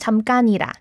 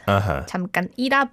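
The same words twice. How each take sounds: First: The word is said smoothly with no break. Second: The word is split with a small break. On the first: The speaker calls it right. "without splitting it, you can just blend the sound" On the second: The speaker calls it wrong. "was how he pronounced"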